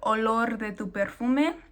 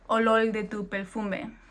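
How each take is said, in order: First: The R is pronounced the Mexican way. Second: The R is pronounced the Puerto Rican way. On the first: This is how it is said in Mexico. "in Mexico, you could say something like" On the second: This is how it is said in Puerto Rico. "in Puerto Rico or another uh, Spanish-speaking area, you may say"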